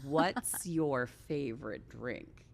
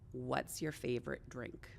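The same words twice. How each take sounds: First: The question is asked more slowly. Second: The question is asked at normal speed.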